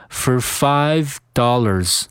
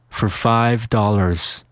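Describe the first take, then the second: No difference in how they are said.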